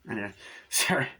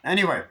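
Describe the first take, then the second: First: Breaks into a laugh mid-line; sheepish laugh, then sorry; laughing apology. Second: Loud. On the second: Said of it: "loud reset anyway". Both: Real, not acted.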